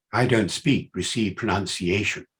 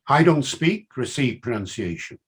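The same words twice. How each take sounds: First: Put-on BBC accent, lower in pitch; received pronunciation. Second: Said in the usual way. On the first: Shown as a demonstration. Lecturer showing he could adopt RP, put-on BBC accent. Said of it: "adopt the accent of the B B C".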